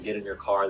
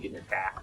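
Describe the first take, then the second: First: It is said in a general American accent. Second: It is said in a Boston accent. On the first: "instead of saying" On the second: "Boston, they say"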